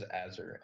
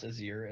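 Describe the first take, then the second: First: Azure said as AZ-er, no y sound; his own pronunciation. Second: Azure said as AZ-yeer, with a clear y; mock the wrong way, Azure as AZ-yeer; the pronunciation he hates. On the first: Correcting friends, saying Azure as AZ-er. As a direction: give the right version, Azure as AZ-er. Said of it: "pronounce Azure as Azure". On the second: Ranting about people who mispronounce it, saying Azure as AZ-yeer. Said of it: "people fucking actually pronounce Azure as". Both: Shown as a demonstration.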